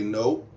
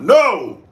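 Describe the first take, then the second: First: It is said calmly and quietly. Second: It is said harshly and loudly.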